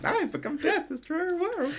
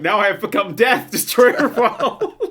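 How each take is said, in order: First: High, soft talking doll voice; a pull-string doll reciting; pull string toy. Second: Pull string toy. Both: Acted. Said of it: "Just pull the string on the back".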